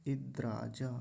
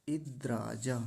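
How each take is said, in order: The two takes are said the same way.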